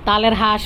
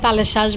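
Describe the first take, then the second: First: The second word starts with an h sound. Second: The second word starts with an sh sound. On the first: This is how it is said in another region. "এমন উচ্চারণে হবে" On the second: This is how it is said in the speaker's area. "আমার এলাকায় তালের শ্বাস বলে"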